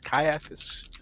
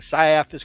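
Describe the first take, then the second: First: The name starts with a hard K sound. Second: The name starts without a hard K sound. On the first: The audiobooks say it this way. "with a hard C as Caiaphas" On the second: Some people online say it this way. "I've heard people say"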